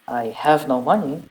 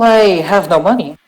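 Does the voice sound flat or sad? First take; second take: sad; flat. First: It is said in a sad, sighing tone. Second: It is said in a flat, ordinary tone. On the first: "Admitted William dejectedly" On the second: "That doesn't sound very sad or dejected or sighing"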